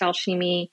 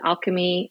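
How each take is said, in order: First: The word is said with French sounds. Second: The word is said with English sounds. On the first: "It is pronounced Alchemy" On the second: "A lot of people pronounce it alchemy"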